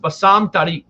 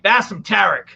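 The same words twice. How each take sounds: First: The name is said without an American accent. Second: The name is said with an American accent.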